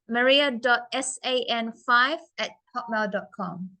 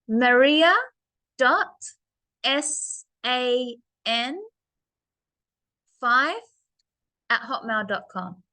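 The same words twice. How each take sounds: First: It is said at normal speed. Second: It is said slowly.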